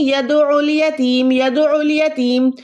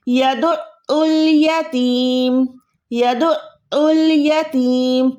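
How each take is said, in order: First: यदउल यतीम run straight through without holding the ain; यदउल यतीम smoothly joined, no throat stop; mistake, no doubling. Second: यदउल यतीम with a long catch in the throat after "du"; slow chanted यदउल यतीम, the taught way; doubled ain. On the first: Retold or imitated. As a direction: imitate the common error, "yadu-ul yateem" with no catch. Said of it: "शद अदा नहीं करते". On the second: Shown as a demonstration. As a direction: recite यदउल यतीम slowly, holding the ain, then a long "teeem". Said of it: "इस type का आपने अदा करना है".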